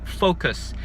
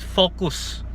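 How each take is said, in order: First: It is said with a Western English pronunciation. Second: It is said with a Filipino English pronunciation. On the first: "in the Western Hemisphere it's really focus" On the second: "in the Philippines we call it focus"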